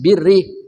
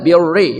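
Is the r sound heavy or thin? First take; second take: thin; heavy. First: The r is pronounced thin and light. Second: The r is pronounced heavy and thick. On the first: The speaker calls it right. "roknya tarkik tipis" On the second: The speaker calls it wrong. "nggak boleh"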